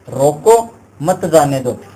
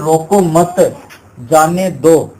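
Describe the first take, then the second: First: There is a pause right after 'roko'. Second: There is a pause right after 'mat'.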